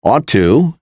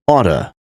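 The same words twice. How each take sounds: First: Said in the usual way. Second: "oughta" as AW-tuh; casual blended "oughta", one t; reduced ought to. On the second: Shown as a demonstration. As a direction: run "oughta" together with a weak final "uh". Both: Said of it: "is pronounced as".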